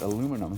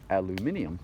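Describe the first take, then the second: First: It is said with four syllables, ending '-num'. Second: It is said with five syllables, ending '-nium'. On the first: "we pronounce it aluminum here" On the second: "especially England, I believe, they pronounce it aluminium"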